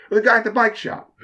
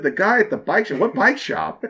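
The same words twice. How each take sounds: First: Higher, plain statement with a falling end; just state it, as the owner; owner's matter-of-fact answer. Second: Rising, baffled question; puzzled echo. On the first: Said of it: "He's like". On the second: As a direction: echo it back, confused. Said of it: "I was like". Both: Retold or imitated.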